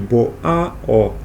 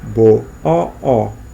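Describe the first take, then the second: First: An A vowel is heard between the O sounds. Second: Only a lengthened O vowel is heard. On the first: This is the form before contraction. "em vez de" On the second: This is the contracted form. "fica só um O mais longo"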